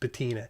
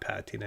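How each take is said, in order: First: The word has a refined, posh-sounding pronunciation. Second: The word has a plain, everyday pronunciation. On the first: The speaker calls it right. "it's patina. But um, I thought it'd be pretentious to say it that way" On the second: The speaker calls it wrong. "It's not patina"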